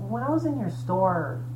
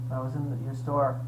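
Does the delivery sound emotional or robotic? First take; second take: emotional; robotic. First: It is said warmly, with more emotion. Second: It is said flatly, with little emotion. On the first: The speaker calls it right. "He could have showed more emotion" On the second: The speaker calls it wrong. "he sounded more like a robot"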